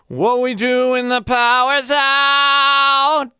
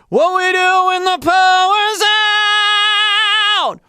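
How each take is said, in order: First: The voice is thinner, with resonance pulled back. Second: The voice is thick, forward and belty. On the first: "that's mixed voice" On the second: "What we do is forward. It's belty"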